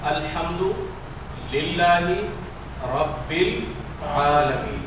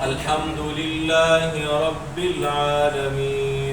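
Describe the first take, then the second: First: The phrase is broken into pieces with pauses. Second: The phrase runs smoothly without breaks.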